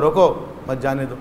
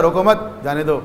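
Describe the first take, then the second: First: "روکو", break, then softer "مت جانے دو"; روکو (pause) مت جانے دو; pause after روکو. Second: "روکو مت" together, short break, then "جانے دو"; روکو مت (pause) جانے دو; pause after مت. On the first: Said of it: "وقف وہاں لگائیں گے". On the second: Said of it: "وقف یہاں لگائیں گے تو معنی کچھ ہو جائے گا". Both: Shown as a demonstration.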